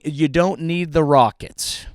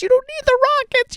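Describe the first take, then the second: First: Said in the usual way. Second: Much higher falsetto on rockets; high squeak. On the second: Pretend. Mocking Bezos about rockets, much higher falsetto take. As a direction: squeak You don't need the rockets.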